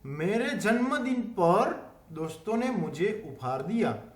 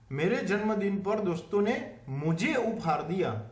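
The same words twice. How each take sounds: First: The stress is on par. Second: The stress is on mujhe.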